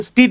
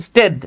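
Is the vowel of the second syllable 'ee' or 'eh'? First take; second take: ee; eh. First: The second syllable has an 'ee' vowel. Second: The second syllable has an 'eh' vowel. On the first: The speaker calls it wrong. "আমরা অনেকে এটাকে ইনস্টিড বলি" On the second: The speaker calls it right. "এটা উচ্চারণ হচ্ছে ইনস্টেড"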